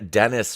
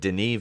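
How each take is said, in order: First: The first name sounds like English Dennis. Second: The first name is said the French way. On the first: The speaker calls it wrong. "That's that's what I said the first time" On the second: The speaker calls it right. "It's Den- Denis Villeneuve"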